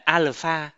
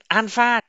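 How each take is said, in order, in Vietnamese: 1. Âm tiết đầu kết thúc bằng âm L. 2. Âm tiết đầu kết thúc bằng âm N. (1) "không phải alpha" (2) "biến L thành N. Chẳng hạn như là alpha"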